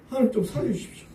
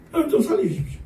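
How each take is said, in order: First: A hushed, higher plea for rescue, a hint of tears; soft tearful plea. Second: A high, stronger cry for rescue, imitating weeping; fuller tearful plea. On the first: 눈물 흘리며 조용히 애원하는 목소리. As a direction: beg quietly, as if weeping. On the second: 왕이 하나님께 통곡하며 높고 큰 소리로 애원하는. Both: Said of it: "눈물 막 펑펑 쏟아내는 거예요".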